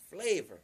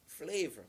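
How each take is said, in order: First: "flavor" punched out louder, falling hard; "flavor" said louder for emphasis. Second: Said in the usual way. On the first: Shown as a demonstration. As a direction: hit "flavor" with force. Repeats word, second louder.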